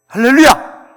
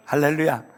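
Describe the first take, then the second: First: "할렐루야"를 아주 크고 높게 외친다; 온 회중이 따라 외치도록 터뜨려라. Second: Said in the usual way. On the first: Real, not acted. Rousing call to congregation. (설교자가 회중 앞에서 크게 외치는 할렐루야)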